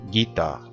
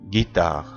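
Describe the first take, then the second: The two takes are said the same way.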